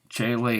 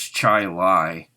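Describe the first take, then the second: First: The second word rhymes with 'say'. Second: The second word rhymes with 'eye'. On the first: "Or Lay" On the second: "That's the way I pronounce it"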